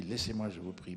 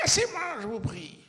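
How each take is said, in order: First: Mild, gentle Alceste, no anger at all. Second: A huge, much higher, much louder furious shout; full-force rage breaking out at last; furious yell. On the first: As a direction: say it kindly, as if asking a friend. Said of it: "je joue ça comme ça, gentiment". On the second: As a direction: brandish a chair and scream it at your friend. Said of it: "je hurle". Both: Retold or imitated.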